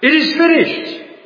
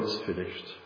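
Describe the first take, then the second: First: It is cried out loudly and triumphantly. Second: It is said in a resigned, defeated tone. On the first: The task has been fully accomplished. The speaker calls it right. "But he cried out" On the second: Everything has failed and is over. The speaker calls it wrong. "they have Jesus saying, "Oh, it's finished. It's all over. I've failed.""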